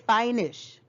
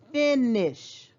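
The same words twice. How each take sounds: First: The first vowel is a long sound. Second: The first vowel is a short sound. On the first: The speaker calls it wrong. "we wouldn't say finish" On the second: The speaker calls it right. "the short sound is finish"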